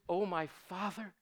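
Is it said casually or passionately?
casually. It is said plainly, without strong feeling.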